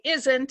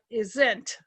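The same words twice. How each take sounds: First: The stress is on the first syllable. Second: The stress is on the second syllable. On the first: The speaker calls it right. "it's important that we say isn't" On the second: The speaker calls it wrong. "and not isn't"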